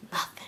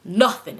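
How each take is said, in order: First: Very soft, barely voiced word; hushed. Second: "Nothing" in full voice, firmly stressed; emphatic NOTHING. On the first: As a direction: say it almost under your breath. First take, almost inaudible. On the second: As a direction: land hard on "Nothing". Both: Real, not acted.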